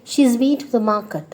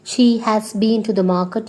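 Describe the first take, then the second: First: "She's" as one syllable; contracted form. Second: Said in the usual way. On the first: Shown as a demonstration. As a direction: fold "has" into "She's". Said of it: "you can just say". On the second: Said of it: "instead of telling the whole sentence".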